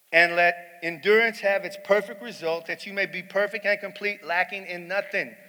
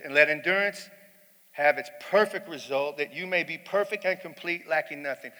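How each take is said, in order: First: Lifted, ringing scripture read; preaching at full force. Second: Said in the usual way. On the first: Acted. Preacher proclaims the verse to his congregation, at full force.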